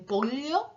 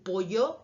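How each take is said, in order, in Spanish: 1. La ll se pronuncia como una l palatal. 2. La ll se pronuncia como una y. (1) "dicen pollo, pollo, eso sería una palatal" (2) "en lugar de decir pollo"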